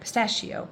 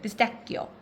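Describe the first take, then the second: First: It is said with an American English pronunciation. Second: It is said with an Italian pronunciation. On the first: "Americans say it pistachio" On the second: "Italians say it pistacchio"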